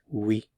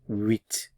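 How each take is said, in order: First: The word ends on the vowel, without t. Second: The word ends with a t sound. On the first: The number comes before a word starting with a consonant. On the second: The number is said on its own.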